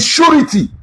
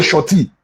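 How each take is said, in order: First: "surety" with an oo vowel and the ri sounded; correct pronunciation. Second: "shorty" with the middle syllable dropped and an aw vowel; mispronounced "shorty". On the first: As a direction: say "surety" as SHOO-ri-tee, three syllables. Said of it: "real pronunciation of that word". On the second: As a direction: say "shorty" as SHAW-tee, two syllables. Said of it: "but the real pronunciation". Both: Shown as a demonstration.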